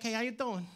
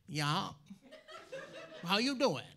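First: Put-on cool-guy Brooklyn accent, casual; easygoing Brooklyn greeting. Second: Mock Maine drawl, understated; Maine accent. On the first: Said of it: "cool guys from Brooklyn with that accent". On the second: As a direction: greet like a laconic Maine local. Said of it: "But I grew up in Maine".

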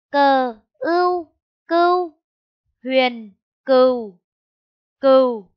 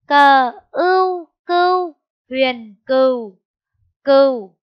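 First: Loud, slow spelling chant; spelling out slowly. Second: Louder, slow spelling chant; spelling out again. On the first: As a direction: spell each sound out for the class. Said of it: "Cô đánh vần". (đánh vần chậm và to) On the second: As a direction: stretch each sound loudly for the class. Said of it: "Cô đánh vần lại nhé". (đánh vần lại chậm và rất to) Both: Shown as a demonstration.

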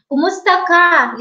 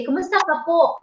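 First: Said in the usual way. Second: Kumusta ka po with po added at the end; polite form. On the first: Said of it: "you say". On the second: Shown as a demonstration. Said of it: "So it's very polite".

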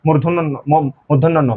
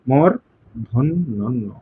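First: মূর্ধন্য ন run together with a weakened r; common mispronunciation. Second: মূর্ধন্য ন very slow, split as mor-dhon-no no; syllable-by-syllable demonstration. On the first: Teacher quoting how many people say it, careless মূর্ধন্য ন. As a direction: slur the r in মূর্ধন্য ন, like "modhonno no". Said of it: "অনেকে বলে". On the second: Teacher showing the correct way, slow syllabified মূর্ধন্য ন. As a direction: break up মূর্ধন্য ন slowly, sounding the r. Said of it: "এইভাবে". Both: Shown as a demonstration.

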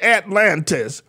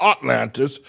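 First: "Atlantis" opening with a short a, as in "cat"; first syllable "at". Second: "Atlantis" opening with a broad ah, as "Ot-lantis"; first syllable "ot". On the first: Preacher correcting to the city's name, "Atlantis" said slowly as "At-lantis". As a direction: say "Atlantis" slowly, starting with a clear "at". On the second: Teacher setting aside the wrong city name, "Atlantis" said as "Ot-lantis". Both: Shown as a demonstration. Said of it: "not Atlantis, but Atlantis".

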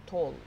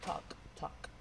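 First: "talk" with the L sounded; wrong pronunciation. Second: "talk" with a silent L; "talk, talk" said softly with no L; correct pronunciation. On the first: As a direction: say "talk" pronouncing the L. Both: Shown as a demonstration. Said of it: "No es talk".

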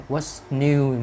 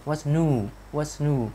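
First: "new" said with a "yoo" glide; "new" with an i-glide before the u; common learner pronunciation. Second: "new" said as "noo", slightly higher; American U vowel. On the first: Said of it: "mình, chúng ta hay đọc là". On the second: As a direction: lean "new" toward a long oo. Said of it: "người Mỹ họ sẽ thiên về chữ U hơn". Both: Shown as a demonstration.

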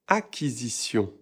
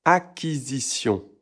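First: Acquisition said akizisjɔ̃ with nasal on; correct pronunciation. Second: Acquisition said as akizisjɔ with the end not nasal; wrong pronunciation. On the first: Teacher giving the right Acquisition after the wrong one. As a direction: Acquisition ending in a clear nasal on. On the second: Teacher showing the wrong way to say Acquisition. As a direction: Acquisition with a plain open o at the end. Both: Shown as a demonstration. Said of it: "Pas acquisition".

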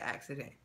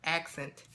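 First: "accident" with an extra middle syllable; mispronounced accent. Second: "Accent" in two clean syllables; corrected pronunciation. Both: Real, not acted. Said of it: "I said accident".

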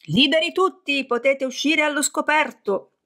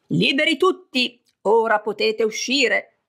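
First: High, ringing call to come out; joint shout. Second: High, ringing proclamation of freedom; booming shout. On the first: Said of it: "gridarono tutti insieme". (grido corale, alto e squillante) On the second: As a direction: call it out grandly to everyone. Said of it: "con voce ancora più altisonante di quella di Zeus gridò". (grido altisonante e solenne) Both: A narrator's reading.

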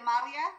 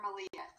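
First: "Malia" with an open MAH at the start; name pronunciation option. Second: "Malia" with a reduced first vowel, muh-LEE-uh; alternative name pronunciation. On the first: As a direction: say "Malia" as MAH-lia, voice rising to ask. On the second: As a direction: say "Malia" as muh-LEE-uh, the softer second option. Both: Shown as a demonstration. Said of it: "Is it Malia or Malia".

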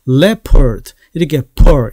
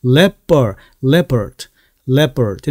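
First: "leopard" with a strong puff of air on the p; wrong aspirated P. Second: "leopard" with a hard p and no puff, "lep-ppurd"; tense unaspirated P. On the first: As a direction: misdemonstrate "leopard" with a breathy "pearl" ending. 이렇게 발음하는 것이 아니라. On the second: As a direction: tighten the p in "leopard" like Korean ㅃ. 된 소리로 살짝 바뀌게. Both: Shown as a demonstration.

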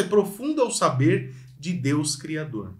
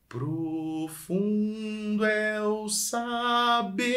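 First: Said in the usual way. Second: Saber stretched long and rising; phrase drawn out, building to saber; stress on saber. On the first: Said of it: "Primeira frase é". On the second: Shown as a demonstration. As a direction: lean slowly toward saber. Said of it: "Pra onde eu tô indo nessa frase".

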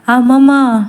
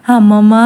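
First: Calling again. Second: Calling out. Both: Acted. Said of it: "Mohini పిలుపు వినిపిస్తుంది".

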